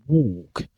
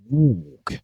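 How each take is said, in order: No difference in how they are said.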